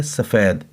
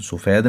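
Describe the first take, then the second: First: "सफ़ेद" with a short a, sa-fed; short a after the s in "सफ़ेद"; correct pronunciation. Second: "सफ़ेद" with a short u, su-fed; mispronunciation. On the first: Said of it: "सीन के ऊपर ज़बर". ("सफ़ेद" में सीन पर ज़बर, स-फ़ेद) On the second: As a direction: say "सफ़ेद" wrongly as sufed. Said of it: "तो सफ़ेद नहीं है". ("सफ़ेद" को पेश के साथ सुफ़ेद बोलना) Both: Shown as a demonstration.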